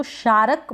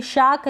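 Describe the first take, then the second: First: शारक as shaa-ruk, two syllables; over-pronounce the R in शारक; शारक with a vowel after a full R; wrong full R. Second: शाक as one syllable, no R; शाक with a long vowel straight into K; silent R. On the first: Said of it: "तो गलत pronunciation हो जाएगा". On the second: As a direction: drop the R in शाक. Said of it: "इसको शारक बोलेंगे". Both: Shown as a demonstration.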